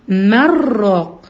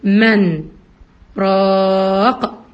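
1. تتصل الكلمتان ببعض وتندمج فيهما النون. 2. النون واضحة ثم سكتة خفيفة. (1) "ما بجيبهاش كلها على بعضها" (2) "بحقق فيه النون عشان لسكت عليها"

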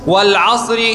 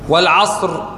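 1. الحرف الأخير يتصل بالكلمة التالية بحركة. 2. تنتهي الكلمة بحرف ساكن لا يُنطق. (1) "لكن حين الوصل" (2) "يلتقي الساكنان حين الوقف"

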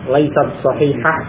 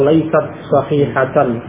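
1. Kata terakhir berakhiran -ah, tanpa akhiran kasus. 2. Kata terakhir berakhiran -atan, akhiran kasus lengkap.

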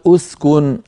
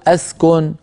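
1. تبدأ الكلمة بالضمة. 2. تبدأ الكلمة بالفتحة. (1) "مضمومة" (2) "مفتوحة"

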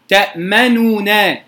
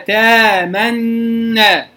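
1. حركة الضمة الكاملة تفصل بين صوتي النونين. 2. يتحد صوتا النونين ليصيرا صوتا واحدا. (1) "هذه ضمة كاملة" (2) "فأدغمه إدغاما محضا بغير إشمام ولا روم"

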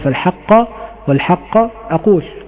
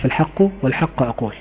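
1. تنتهي الكلمة الأولى 'haqq' بحركة 'a'. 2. تنتهي الكلمة الأولى 'haqq' بحركة 'u'. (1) "وقرأ آخرون بنصبهما" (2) "برفع الحق الأولى، يعني على قراءة حفص"

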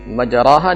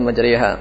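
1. Vokal setelah r adalah a terbuka. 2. Vokal setelah r condong ke e/i.

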